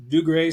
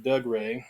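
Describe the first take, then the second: First: "Dougray" with an oo vowel; Dougray pronounced Doo-gray. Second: "Doug Ray" with a short uh vowel; Doug Ray, two names. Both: Shown as a demonstration. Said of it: "or as you pronounce it".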